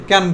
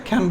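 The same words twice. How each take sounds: First: ক্যান with a plain, puffless K; no breath after the K in ক্যান; unaspirated K. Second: খ্যান with a puff of air on the K; aspirated K. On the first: Teacher repeats the usual pronunciation, unaspirated K. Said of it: "কি বলি?". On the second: Teacher tells students the new pronunciation, aspirated K. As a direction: push breath out after the K of খ্যান. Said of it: "এখন থেকে খ্যান বলবা". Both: Shown as a demonstration.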